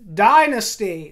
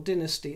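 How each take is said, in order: First: It is pronounced the American way. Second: It is pronounced the British way. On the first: This is how viewers abroad say it. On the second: This is how people in Britain say it.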